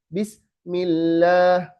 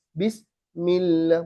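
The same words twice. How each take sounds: First: Bismillah with the sin sound cut off abruptly; slowly, stopping the sin dead before mim; broken bismillah. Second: Bismillah with the sin hissing on into the mim; slowly, letting the s flow unbroken. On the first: Teacher showing the wrong way to students, slowly. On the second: Teacher showing the correct way to students, slowly. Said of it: "harus ngalir terus sampai ke mim". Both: Shown as a demonstration.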